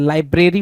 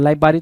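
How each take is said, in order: First: LAI-BRE-RI with clear "br"; correct library. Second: LAI-BA-RI, first r dropped; misread library. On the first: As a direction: say लाइब्रेरी as "lai-bray-ree". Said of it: "B R A R Y होता है". (लाइब्रेरी में "ब्रे" साफ़ बोलें) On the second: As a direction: say लाइब्रेरी as "lai-baa-ree", without the "br". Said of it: "L I B A double R Y बोल रहा है". (लाइब्रेरी को गलत "लाइबारी" बोलें) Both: Shown as a demonstration.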